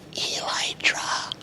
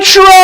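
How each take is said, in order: First: It is said very quietly. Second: It is said very loudly.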